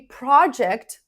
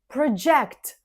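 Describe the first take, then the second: First: The stress is on the first syllable. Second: The stress is on the second syllable. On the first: It is used as a noun. "the first syllable is stressed" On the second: It is used as a verb. "the second syllable is stressed"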